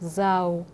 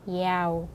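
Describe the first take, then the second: First: The word begins with a z sound. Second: The word begins with a y sound. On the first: This is the northern way of saying it. "북쪽에서 읽는 방식으로 하면은 자오" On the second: This is the southern way of saying it. "남쪽에서는 야오, 야오 이렇게 읽게 됩니다"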